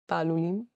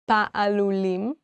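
First: The word is said quickly. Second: The word is said at a normal pace.

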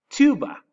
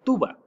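First: It is said with English pronunciation. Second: It is said with Spanish pronunciation. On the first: "en inglés es muy similar. Decimos tuba" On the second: "en español le decimos tuba"

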